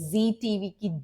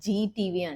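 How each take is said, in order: First: The word begins with a z sound. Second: The word begins with a j sound. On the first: The speaker calls it right. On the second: The speaker calls it wrong.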